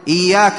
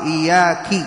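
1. تنتهي الكلمة بحركة قصيرة 'a'. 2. تنتهي الكلمة بحركة قصيرة 'i'.

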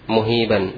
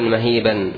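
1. المقطع الأول فيه الضمة u. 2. المقطع الأول فيه الفتحة a. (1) "ولا تقول مهيبا" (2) "فتقول كان عمر رجلا مهيبا"

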